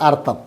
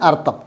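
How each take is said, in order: No difference in how they are said.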